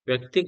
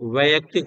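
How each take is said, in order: First: The word starts with a 'vy' cluster. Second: The word starts with a 'vai' syllable. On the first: The speaker calls it wrong. "व्यक्तिक गलत है।" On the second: The speaker calls it right. "वैयक्तिक होता है।"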